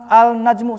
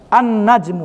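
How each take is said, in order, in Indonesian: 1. Bunyi L diucapkan sebelum N. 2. Huruf L tidak dibunyikan; N dibaca ganda. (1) "susah kan?" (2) "tidak diucapkan"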